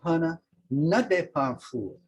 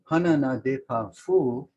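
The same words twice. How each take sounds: First: It sounds like a forceful command. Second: It sounds like a plain statement.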